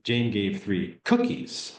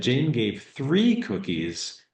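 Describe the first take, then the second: First: Slow, with "cookies" as the accented word; "cookies" set apart and stressed, "three" left unaccented. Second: Slow, with "three" raised and drawn out; long, emphatic "three"; stress on three. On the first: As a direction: hold the emphasis back until "cookies". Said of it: "and you thought". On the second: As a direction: make "three" the key word, falling after it. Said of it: "when do they hear the most emphasis on the wrong word". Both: Shown as a demonstration.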